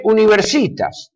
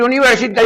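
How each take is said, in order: First: "universitas" slowed and stretched, mimicking the radio doctor's misplaced stress; "universitas" mispronounced on purpose, slow and scornful; mock wrong stress. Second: "universitas" said the proper Latin way, crisp and quick; "universitas" as a Latin teacher would say it; correct Latin stress. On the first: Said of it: "dice universitas". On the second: Shown as a demonstration. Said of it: "en lugar de decir universitas".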